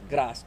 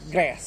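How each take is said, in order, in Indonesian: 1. Diucapkan dengan aksen Jawa yang kental. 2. Diucapkan dengan aksen Amerika. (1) "kalau di kita itu Jawa medok" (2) "Tapi kalau di Amerika itu uh"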